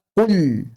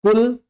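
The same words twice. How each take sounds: First: "kul" with a thick, lingering l; wrong kul. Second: "Kul" with a thin, short l; correct kul. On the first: Teacher demonstrating the mistake, thick-l "kul". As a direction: drag out a heavy l in "kul". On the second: Teacher modelling the right word, thin-l "Kul". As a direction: say "Kul" with a light, clean l. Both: Shown as a demonstration. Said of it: "jangan dibaca kul".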